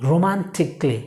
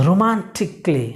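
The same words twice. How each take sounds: The two takes are said the same way.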